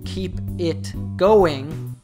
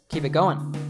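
First: Every word and ending is pronounced fully and clearly. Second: 'It' and the '-ing' ending are reduced and run together. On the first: "So instead of saying keep it going" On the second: "Jake says keep it going"

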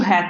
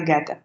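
First: It begins with a soft throaty h sound. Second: It begins with a hard g sound. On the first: The speaker calls it right. "я завжди кажу «гете»" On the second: The speaker calls it wrong. "а не «гете»"

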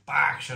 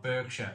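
First: The first syllable sounds like 'bark'. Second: The first syllable sounds like 'berk'. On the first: The speaker calls it right. "I had to drum into my mind, Berkshire" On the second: The speaker calls it wrong. "not Berkshire"

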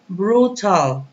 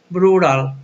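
First: The t is a clear t sound. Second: The t sounds like a quick r.

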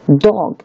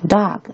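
First: The vowel is the short rounded o sound. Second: The vowel is the open American a sound. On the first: "它发作o 的o" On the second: "在美式发音里面，它还有发成r dog"

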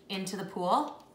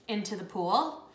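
Both takes have the same delivery.

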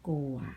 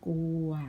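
First: The word is said with a low tone. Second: The word is said with a mid tone.

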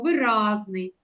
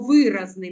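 First: The stress is on the second syllable. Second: The stress is on the first syllable. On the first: The speaker calls it right. "ми кажемо виразний" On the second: The speaker calls it wrong. "ми ж не кажемо виразний"

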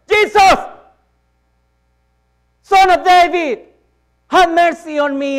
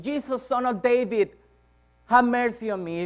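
First: It is shouted more loudly. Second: It is shouted less loudly.

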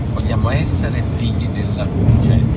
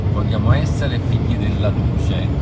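The two takes are said the same way.

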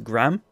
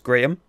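First: The name is said the American way. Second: The name is said the local, non-American way. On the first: "But in America, it's Graham" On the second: "like the name Graham here, is Graham"

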